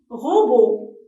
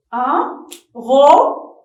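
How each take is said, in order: First: Said in the usual way. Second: Un robot slowed and loud, ro and bot split apart; syllable-tapping demo. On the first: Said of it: "Nous avons dit que c'est un". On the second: Shown as a demonstration.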